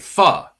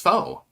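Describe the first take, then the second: First: The vowel sounds like the one in 'fuck'. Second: The vowel sounds like the one in 'faux'. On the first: The speaker calls it right. "Foo is pronounced fa as in fuck" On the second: The speaker calls it wrong. "I thought it was faux"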